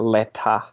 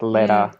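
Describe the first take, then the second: First: The T is said as a crisp, clear T. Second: The T is said as a quick flap. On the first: "instead of um letter" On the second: "we use the T flap all the time"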